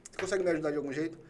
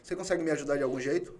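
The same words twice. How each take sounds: The two takes are said the same way.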